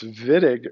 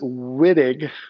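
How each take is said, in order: First: The name is said with German sounds. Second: The name is said with non-German sounds. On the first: The speaker calls it right. "It's Wittig reagent" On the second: The speaker calls it wrong. "Don't pronounce it Wittig. That's improper in German"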